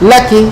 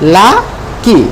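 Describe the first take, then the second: First: The two syllables are run together quickly. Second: The two syllables are said slowly and separately. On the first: "দ্রুত" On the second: "একসাথে"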